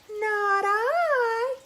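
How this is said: It is said in a whiny cat voice.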